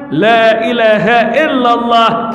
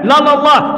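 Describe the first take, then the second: First: It is said slowly with every syllable clear. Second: It is said very fast with syllables slurred together. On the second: "Tembak gigi tiga"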